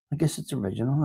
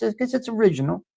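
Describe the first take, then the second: First: Said in the usual way. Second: "I guess it's original" said higher and faster, leaning on guess; musing take, stress on guess. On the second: Shown as a demonstration. Musing to the chat about original content, fast and higher. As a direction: toss off "guess" quickly with a rising lift.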